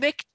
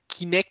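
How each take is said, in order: First: The first vowel is swallowed almost completely. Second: The first vowel is clearly pronounced. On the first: "so das I ganz verschluckt" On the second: "Hab Kinect oder so gesagt"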